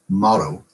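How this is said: The T is flapped, American accent. "but Americans will pronounce it motto"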